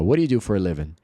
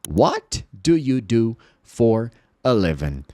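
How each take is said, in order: First: The words run together with reduced sounds. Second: Each word is pronounced separately and carefully. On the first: "Você vai ouvir assim" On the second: "você não vai ouvir dessa forma"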